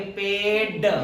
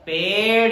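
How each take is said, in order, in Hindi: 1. अंतिम व्यंजन एक सख़्त मूर्धन्य ‘ड’ स्टॉप है। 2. अंतिम व्यंजन एक तेज़ मूर्धन्य ‘ड़’ फ़्लैप है। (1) "ये वाला लगाते हैं जो नॉर्मल डे है" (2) "इसे अड़ बोलते हैं ... उच्चारण इसका सही सुनाई देता है"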